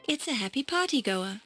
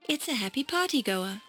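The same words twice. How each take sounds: The two takes are said the same way.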